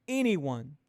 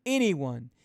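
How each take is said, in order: Both takes have the same delivery.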